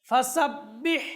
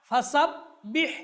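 Both takes have the same delivery.

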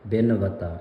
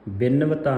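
First: The word is said as one joined unit. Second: The word is broken into two separate parts. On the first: The speaker calls it right. "ਬਿਨਵਤਾ ਇਸ ਤਰ੍ਹਾਂ ਉਚਾਰਨ ਕਰਨਾ ਹੈ" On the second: The speaker calls it wrong. "ਬਿਨ ਵਤਾ ਨਹੀਂ ਪੜ੍ਹਨਾ"

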